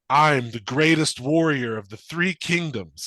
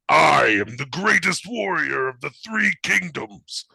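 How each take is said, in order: First: The voice is calm and controlled. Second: The voice is wild and animal-like. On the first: This is the new voice actor's delivery. The speaker calls it wrong. "sounds more competent" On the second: This is the old voice actor's delivery. The speaker calls it right. "He doesn't sound like a wild animal anymore"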